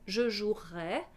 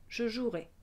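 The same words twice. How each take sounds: First: The final vowel is an open E. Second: The final vowel is a closed E. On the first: It is the conditional. "c'est un E ouvert pour le conditionnel" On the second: It is the future. "le futur se prononce avec un E fermé"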